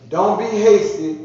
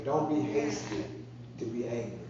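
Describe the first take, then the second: First: Slow, loud and high, leaning on don't; emphatic warning. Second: Soft repeat. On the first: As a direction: hammer the warning home, slowly. Preacher stressing scripture line. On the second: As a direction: let the warning sink in quietly. Preacher repeating scripture line softly. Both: Real, not acted.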